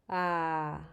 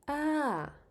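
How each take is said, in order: First: The pitch is low, like a sigh. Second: The pitch falls from high to low. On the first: "Low, sighing"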